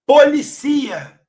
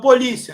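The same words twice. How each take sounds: First: Policia stressed on the "ci", po-li-CI-a, drawn out slowly; stress shift demo. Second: Polícia with stress on the "lí", po-LÍ-cia; stress shift demo. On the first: Teacher showing students the verb form, Policia stressed on "ci". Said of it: "Policia vira verbo". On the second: Teacher contrasting accented and unaccented words for students, polícia stressed on "lí". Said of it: "Tirou o acento, vira policia". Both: Shown as a demonstration.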